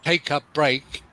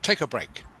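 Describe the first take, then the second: First: The words are said separately, one by one. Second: The words run together like one word. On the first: The speaker calls it wrong. "instead of saying" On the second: The speaker calls it right. "join the words together"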